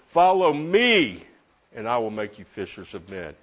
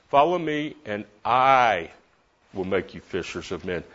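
First: The word me carries the main stress. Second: The word make carries the main stress. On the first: The focus is on whom to follow. "Who have I been following?" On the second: The focus is on who does the making. "He makes me a fisher of men"

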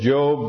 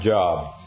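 First: It is said unlike the everyday word job. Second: It is said like the everyday word job. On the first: It names the biblical book. The speaker calls it right. "it's Job" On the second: It means work or employment. The speaker calls it wrong. "not Job. Some people ... thought it had to do with a job"

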